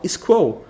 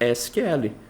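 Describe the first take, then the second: First: It is said as a single squirrel-like word. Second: Each letter is spelled out with Portuguese letter names. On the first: "de zoeira ou de brincadeira... quase para esquilo" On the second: "No português, você vai ter o hábito de falar o acrônimo S Q L"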